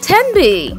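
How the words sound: It is said in a put-on British accent.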